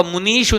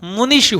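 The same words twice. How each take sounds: First: मुनीषु with a long drawn ई, shown as the mistake; wrong long i. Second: मुनिषु with a short crisp इ; correct short i. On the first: Teacher shows students the wrong form, long ई in मुनीषु. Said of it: "मुनीषु नहीं होगा". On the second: Teacher gives students the correct form, short इ in मुनिषु. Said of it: "मुनिषु होगा". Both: Shown as a demonstration.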